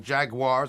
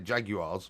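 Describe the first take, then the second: First: It is pronounced the American way. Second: It is pronounced the British way. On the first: It matches how the team's home country says it. "I'm going to say it that way" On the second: It matches how the host's country says it. "obviously we say Jaguars"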